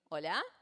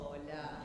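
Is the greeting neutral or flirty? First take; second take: neutral; flirty. First: It is a plain, neutral greeting. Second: It is a sweet, flirty greeting.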